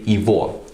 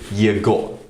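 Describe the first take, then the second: First: The middle consonant is a V sound. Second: The middle consonant is a hard G sound. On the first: The speaker calls it right. "we say Ivo, ... we pronounce the G letter as a V" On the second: The speaker calls it wrong. "we don't say Yego"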